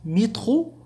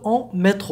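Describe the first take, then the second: First: مترو said "mee-tro", with an ee in the first syllable; métro with i sound. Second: Métro said "may-tro", with a closed é; métro with é sound. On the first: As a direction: make the first vowel of مترو a clear i. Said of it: "هناك فرق ما بين حرف". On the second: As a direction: give métro a clear French é in the first syllable. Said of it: "حرف ال إو يصدر لنا صوت إي". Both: Shown as a demonstration.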